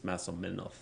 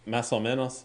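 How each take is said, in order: First: The s sounds are said like th. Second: The s sounds are said as plain s.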